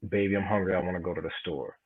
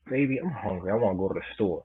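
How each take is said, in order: First: It is said in a plain, neutral tone. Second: It is said in a flirtatious, playful tone. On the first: "You could say it like you know regular like that" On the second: "You could say it flirtatious like"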